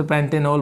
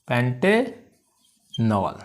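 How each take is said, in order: First: Said in the usual way. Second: pentanol very slow, पेंटे held, pause, then नॉल; syllable by syllable. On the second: Shown as a demonstration. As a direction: stretch out pentanol in two separate parts. Teacher repeats it in parts.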